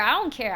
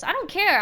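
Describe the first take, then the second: First: Said in the usual way. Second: Emphatic. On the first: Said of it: "repeated calmer". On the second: Real, not acted. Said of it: "repeated with less force".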